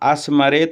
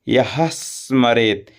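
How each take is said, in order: First: The s follows with no h sound. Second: A clear h sound comes before the s. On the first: The speaker calls it wrong. "नहीं बोलेंगे" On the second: The speaker calls it right. "यह के साथ ह के साथ स बोल लें"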